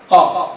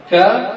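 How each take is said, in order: First: "قاف" with a back uvular q; qaf sound. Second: "كاف" with a front k; kaf sound. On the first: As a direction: demonstrate the heavy q of "قاف". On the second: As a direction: demonstrate the light k of "كاف". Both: Shown as a demonstration. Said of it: "فرق بين الكاف والقاف".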